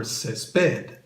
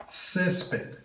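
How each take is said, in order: First: Césped stressed on PED, drawn out; stress on last syllable. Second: Césped stressed on CÉS, drawn out; stress on first syllable. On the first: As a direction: say césped slowly as ces-PED. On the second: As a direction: say césped slowly as CÉS-ped. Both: Shown as a demonstration. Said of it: "underline where the emphasis goes".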